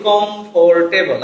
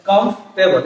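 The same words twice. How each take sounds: First: কমফোর্টেবল with a full "for", "kom-for-te-bol"; common mispronunciation. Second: কমফোর্টেবল squeezed to "komf-tebol"; correct pronunciation. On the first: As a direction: sound out the o and r in কমফোর্টেবল. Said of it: "আসলে শব্দটা কমফোর্টেবল না". (ভুল উচ্চারণে কমফোর্টেবল, "ফোর" পুরোটা বলে) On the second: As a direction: drop the "or" in কমফোর্টেবল, komf-te-bol. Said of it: "উচ্চারণটা হচ্ছে কি". (শুদ্ধ উচ্চারণে কমফোর্টেবল, "কমফ-টেবল") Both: Shown as a demonstration.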